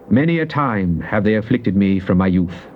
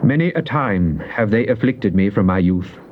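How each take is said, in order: Both takes have the same delivery.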